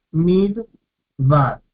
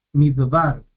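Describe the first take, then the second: First: "Midbar" en dos golpes, mid... bar; separado en sílabas. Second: Said in the usual way. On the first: Shown as a demonstration. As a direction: haz pausa entre las dos sílabas de "Midbar". ("Midbar" dividido para enseñar las sílabas) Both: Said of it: "Tenemos dos sílabas".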